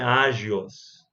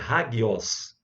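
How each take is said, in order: First: The consonant sounds like a soft j. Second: The consonant sounds like a hard g. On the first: The speaker calls it wrong. "não é agios" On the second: The speaker calls it right. "sempre como o G de gato"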